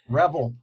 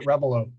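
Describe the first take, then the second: First: The name ends without a final vowel sound. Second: The name ends with an extra final vowel sound. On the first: This is how the name is normally said. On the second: This is how Americans say the name. "the Americans pronounce it Revelo"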